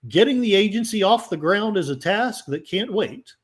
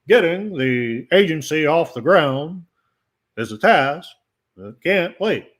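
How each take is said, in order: First: It is read in the speaker's own plain voice. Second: It is said in a put-on imitating voice.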